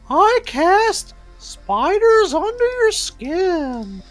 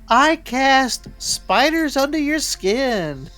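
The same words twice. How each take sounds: First: It is said in a strong put-on character voice. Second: It is said in a plainer, less characterized voice.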